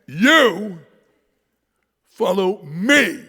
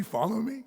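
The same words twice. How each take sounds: First: You hit loud and high, then slow follow me; slow, emphatic You follow me; stress on You. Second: Said in the usual way. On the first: Shown as a demonstration. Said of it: "he emphasizes this". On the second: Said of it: "Didn't I just say".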